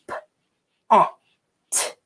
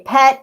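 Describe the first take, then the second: First: The word is said slowly, split into sounds. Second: The word is said quickly as one blended unit. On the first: "I say it slowly, I say it turtle talk" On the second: "you say it fast"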